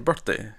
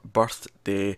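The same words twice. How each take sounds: First: Birth and day run together without a pause. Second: A pause separates birth and day. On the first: "you say birthday" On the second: "I'm saying birth and day as two separate words"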